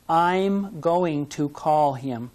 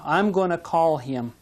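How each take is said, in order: First: 'Going to' is said fully, word by word. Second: 'Going to' is reduced to a quick 'gonna'.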